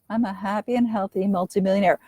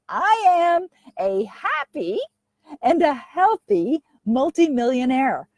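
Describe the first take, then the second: First: It is said hesitantly, without belief. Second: It is said firmly, with strong belief. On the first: The speaker does not believe it. The speaker calls it wrong. "with with doubt" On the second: The speaker believes it. The speaker calls it right. "with conviction. Really say it like you believe it"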